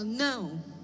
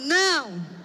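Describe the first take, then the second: First: It is said plainly and softly. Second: It is said loudly and angrily.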